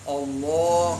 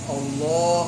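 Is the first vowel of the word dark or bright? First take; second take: dark; dark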